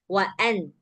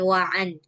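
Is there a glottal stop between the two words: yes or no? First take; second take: yes; no. First: A glottal catch separates the two words. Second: The two words run together without a catch. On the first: The speaker calls it right. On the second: The speaker calls it wrong. "jangan wa an"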